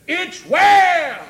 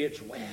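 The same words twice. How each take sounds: First: High, loud proclamation; preaching shout. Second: Very low and soft; hushed assurance. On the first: Preacher proclaiming faith in trouble, shouted. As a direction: burst out at full voice. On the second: Preacher telling church what they can say, hushed. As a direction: drop down low and say it quietly. Quiet take before shouted one. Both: Real, not acted.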